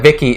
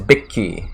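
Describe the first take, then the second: First: The name begins with a V sound. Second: The name begins with a B sound. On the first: This is the usual English form. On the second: This is the Japanese form.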